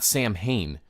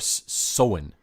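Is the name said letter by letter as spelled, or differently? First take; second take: as spelled; differently. First: The name is sounded out as spelled. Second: The name is not sounded out as spelled. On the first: The speaker calls it wrong. "but not Sam Hain" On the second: The speaker calls it right. "or Samhain"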